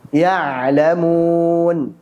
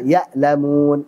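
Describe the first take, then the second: First: The middle consonant is a throaty ain. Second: The middle consonant is a glottal stop. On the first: They know. The speaker calls it right. "Kita baca yang benar" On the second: They feel pain. The speaker calls it wrong. "Bacaan yang salah adalah"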